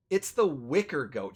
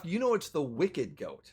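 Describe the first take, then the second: First: "wicker" ending in an r sound; wicker goat. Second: "wicked" said with a clear final d; wicked goat. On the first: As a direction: say "wicker goat" as the NPC does. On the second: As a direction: correct the name to "wicked goat". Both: Shown as a demonstration. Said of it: "He's mis-, mispronouncing it".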